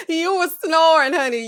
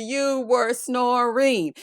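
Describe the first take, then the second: First: Loud, high mock accusation; raised-voice playful teasing; teasing exclamation. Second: "You were snoring" stretched very slowly, word by word; slow, over-enunciated playful accusation; drawn-out emphasis. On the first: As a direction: burst out with it, fresh from a laugh. Acts suitors teasing her snoring. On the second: Retold or imitated. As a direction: drag out "snoring" syllable by syllable. Repeats the tease word by word.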